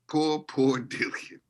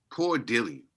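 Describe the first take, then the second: First: Slow, higher, laughing Poor, poor Dillian; mock pity. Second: Said in the usual way. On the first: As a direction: stretch Poor, poor Dillian out in fake sympathy, laughing through it.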